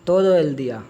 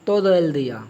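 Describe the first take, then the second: Both takes have the same delivery.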